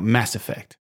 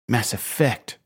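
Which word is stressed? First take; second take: Mass; Effect. First: The stress falls on the word mass. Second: The stress falls on the word effect. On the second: "Luke does emphasize effect and not mass"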